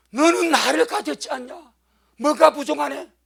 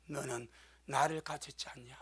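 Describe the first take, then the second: First: 너는 punched, louder and higher; ringing proclamation. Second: Hushed, gentle question; soft voice of the Lord. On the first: Pastor repeating the Lord's words to the church, loud. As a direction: proclaim it to the congregation. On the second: Pastor voicing the Lord to a failing minister, soft and hushed. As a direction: ask it softly, like a tender rebuke. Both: Retold or imitated. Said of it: "주님 딱 말씀하더래".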